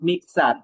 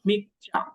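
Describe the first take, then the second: First: The word ends in an 'ser' sound. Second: The word ends in a 'cha' sound. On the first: The speaker calls it wrong. "Not মিক্সার" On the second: The speaker calls it right. "এটা হবে মিকচা"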